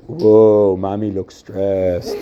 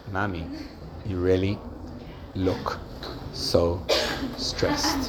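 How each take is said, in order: First: Low, drawn-out "whoa", mock observation; wrong tone of voice. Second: Soft, low and halting sympathy; caring tone of voice. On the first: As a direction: tease it slowly and tactlessly. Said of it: "imagine the kid says". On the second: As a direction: say it gently, pausing between the words. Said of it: "It's tone of voice". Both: Shown as a demonstration.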